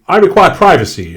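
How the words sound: It is said in a high, shrieking voice. "causes a shriek"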